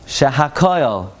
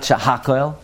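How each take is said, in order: First: Shehakoil slowly, with KOIL distinct; correct Shehakoil. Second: Shehakoil run together, stressed on HAK; mispronounced Shehakoil. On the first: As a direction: say sheha-KOIL, landing on the last syllable. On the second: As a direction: say she-HAK-oil, swallowing the ending. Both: Shown as a demonstration. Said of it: "not Shehakoil".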